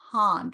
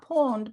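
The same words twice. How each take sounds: First: Pond with an open ah, chin dropped; open ah vowel. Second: Pond with a rounded oh vowel, the wrong way. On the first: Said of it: "Drop your chin". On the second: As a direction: pond said with lips rounded, not open. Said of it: "Not pond". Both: Shown as a demonstration.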